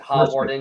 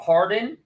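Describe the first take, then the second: First: The name is said in three syllables. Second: The name is said in two syllables. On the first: This is how someone reading the spelling would say it. The speaker calls it wrong. "American people would pronounce it Hawarden" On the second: This is how the name is actually said locally. The speaker calls it right. "it's different than it's pronounced. It's Howarden or Harden"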